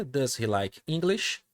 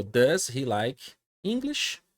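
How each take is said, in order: First: Slow rising question tune, "English?" lifted; question intonation. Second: Slow English question with a rising end; question intonation. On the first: Teacher repeating the question for students, slow with a rise. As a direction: model it again with the rise on "English?". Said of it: "Fiz a minha pergunta". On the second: Teacher modelling the question for students, rising at the end. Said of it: "Fiz a entonação da pergunta". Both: Shown as a demonstration.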